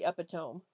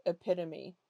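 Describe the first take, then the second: First: Epitome said as EP-ih-tome; epitome in three syllables, rhyming with home; mispronunciation. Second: Epitome said as ih-PIT-uh-mee; four syllables in epitome, stressed on PIT; correct pronunciation. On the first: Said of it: "I've heard people say". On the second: Shows correct pronunciation of word. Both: Shown as a demonstration.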